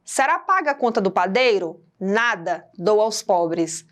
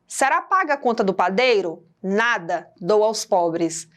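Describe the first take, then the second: First: There is a clear break after nada. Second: There is a clear break after nada.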